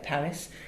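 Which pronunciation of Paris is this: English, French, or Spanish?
English. It is said with an English pronunciation. "how English people say Paris, click on English"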